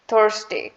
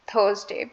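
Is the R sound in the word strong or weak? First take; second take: strong; weak. First: The R sound is strong and clearly heard. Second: The R sound is weak and barely heard. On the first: "in American English we emphasize" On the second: "In British English we do not emphasize that much on R"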